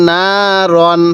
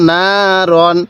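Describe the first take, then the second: No difference in how they are said.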